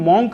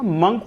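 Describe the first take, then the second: First: The vowel sounds like 'aw', as in 'mawnk'. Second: The vowel sounds like 'uh', as in 'munk'. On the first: The speaker calls it wrong. "मॉन्क नहीं होता" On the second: The speaker calls it right. "मंक होता है"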